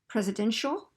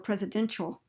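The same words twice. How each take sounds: First: The middle consonant is a soft sh sound. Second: The middle consonant is a sharper ch sound. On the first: "that's a sh sound" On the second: "that's a ch sound"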